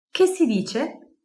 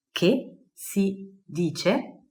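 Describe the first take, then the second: First: Said in the usual way. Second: Drawn-out Che si dice syllable by syllable; very slow model phrase. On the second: Shown as a demonstration. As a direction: stretch every syllable for learners.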